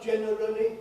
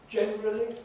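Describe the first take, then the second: First: The word is said with every syllable in full. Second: The word is said in a reduced, shortened form. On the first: The speaker calls it wrong. "sounds very old-fashioned and fussy to me" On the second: The speaker calls it right. "these get generally reduced. Generally, you notice"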